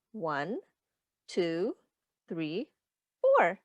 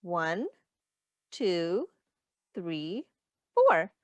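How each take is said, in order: Both takes have the same delivery.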